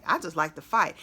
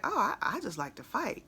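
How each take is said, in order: First: Said in the usual way. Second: Casual, offhand, nothing gangster about it; matter-of-fact. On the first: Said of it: "And he said". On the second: Retold or imitated. Imitating rapper's casual interview line, matter-of-fact. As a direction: toss it off like it's ordinary. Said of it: "he said it so matter-of-factly".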